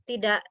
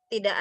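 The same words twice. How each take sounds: Both takes have the same delivery.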